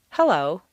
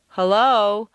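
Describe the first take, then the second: First: HELLO said firmly, the tune falling; a confident, settled HELLO. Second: HELLO with an unsure, questioning lift; uncertain. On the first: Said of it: "you'd confidently want to say". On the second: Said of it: "because it sounds so uncertain". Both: Shown as a demonstration.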